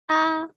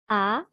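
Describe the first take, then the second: First: The pitch stays level and high. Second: The pitch rises from mid to high.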